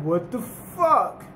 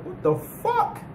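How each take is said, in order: First: Slow, stretched disbelief; staring up at something huge, slowly; drawn-out stunned what. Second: Squeaky high startled what; a character's high-pitched startled outburst; retold shock. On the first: Retold or imitated. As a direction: let it hang in slow awe. They see a giant wall. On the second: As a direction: jump way up in pitch, caught off guard. Zebra senses the ground moving.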